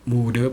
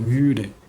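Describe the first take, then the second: First: The vowel is a plain u sound. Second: The vowel is a rounded ü sound. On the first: The speaker calls it wrong. "mude bukan" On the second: The speaker calls it right. "tapi müde"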